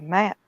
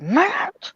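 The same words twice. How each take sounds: First: Said in the usual way. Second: Higher, louder call of his name; urgent call. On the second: Retold or imitated. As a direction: call him sharply to get his attention. Carol calls again, more urgently.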